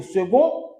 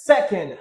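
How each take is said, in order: First: "second" the French way, hard g and nasal ending; French pronunciation. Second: "second" with a clear k and sounded nd; English pronunciation. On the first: Teacher contrasting French with English for Creole speakers, French pronunciation. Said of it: "Franse a nou di". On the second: Teacher contrasting English with French for Creole speakers, English pronunciation. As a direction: say "second" the English way, SEK-end. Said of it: "But English is". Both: Shown as a demonstration.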